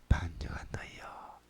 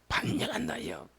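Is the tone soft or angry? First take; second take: soft; angry. First: It is said softly and gently. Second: It is said in an explosive angry tone.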